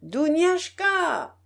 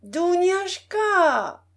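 First: Calling out. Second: Long, high drawn-out call across the house. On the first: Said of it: "de toute sa gorge, elle appela". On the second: Old princess calling her maid again, high and very slow. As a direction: stretch the name slowly, calling the maid. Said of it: "répéta la vieille dame". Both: A narrator's reading.

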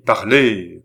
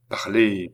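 First: Loud, insistent command; plus impératif. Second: Firm, contained order; impératif. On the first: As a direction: demand an answer, voice raised. (ordre impérieux, voix forte) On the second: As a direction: give a first, measured command. (ordre ferme et contenu) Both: A narrator's reading. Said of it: "d'un ton de plus en plus impératif".

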